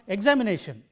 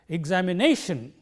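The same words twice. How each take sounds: First: The stress is not on the fourth syllable. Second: The stress is on the fourth syllable. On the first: The speaker calls it wrong. "It is not" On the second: The speaker calls it right. "we pronounce it like this"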